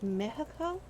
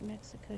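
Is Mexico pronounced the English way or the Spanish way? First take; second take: Spanish; English. First: The word is said with a Spanish pronunciation. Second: The word is said with an English pronunciation. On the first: This is how the chef says it. "Is how she says it. It's quite different" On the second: This is not how the chef says it. "she doesn't pronounce it Mexico"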